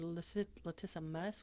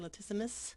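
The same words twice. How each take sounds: First: The last syllable is said clearly and fully. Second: The last syllable is reduced and quick. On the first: The speaker calls it right. "So just kind of say mus" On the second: The speaker calls it wrong. "you don't don't say latissimus"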